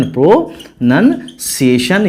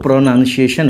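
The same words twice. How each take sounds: First: प्रोनाउंसिएशन broken slowly into pro, nun, ciation; syllable by syllable. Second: Said in the usual way. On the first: Shown as a demonstration. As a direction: sound out प्रोनाउंसिएशन in separate chunks with pauses. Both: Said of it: "यानी उच्चारण बोलते".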